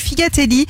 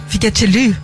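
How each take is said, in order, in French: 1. Le mot est prononcé avec un accent français standard. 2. Le mot est prononcé avec un faux accent corse.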